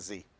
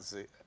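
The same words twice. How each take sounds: First: The letter name is said the American way. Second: The letter name is said the British way. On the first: "in American, you call it Z" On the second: "I'm going to call that Z"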